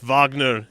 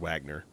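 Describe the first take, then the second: First: The name is said with a German pronunciation. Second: The name is said with an American pronunciation. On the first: "It's Wagner in Germany" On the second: "probably how you say it in America"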